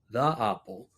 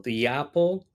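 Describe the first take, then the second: First: "the" before "apple" reduced, as before a consonant; accented "the". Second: Said in the usual way. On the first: Shown as a demonstration. Teacher contrasting accents, "the apple" with a colloquial "the". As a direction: say "the apple" with a casual "thuh". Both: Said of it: "many people don't say".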